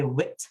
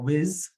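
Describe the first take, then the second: First: The word ends with a t sound. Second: The word ends with a z sound. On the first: "a temptation to say wit" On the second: "or whiz if you can't say that th sound"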